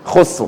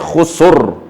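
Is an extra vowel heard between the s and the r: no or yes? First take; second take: no; yes. First: The s runs straight into r with no vowel. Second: An extra vowel is inserted between s and r. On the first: The speaker calls it right. "you cuma letak lidah dekat makhraj ra" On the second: The speaker calls it wrong. "jangan khusur. Itu bunyikan sangat"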